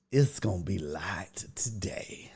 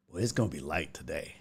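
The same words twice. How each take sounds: First: Slow, soft whisper. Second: Softer, dropped voice; quiet. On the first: Telling viewers the stream is light, whispered. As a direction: whisper it like a secret. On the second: Telling viewers the stream is light, quiet. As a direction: say it low and soft. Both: Shown as a demonstration.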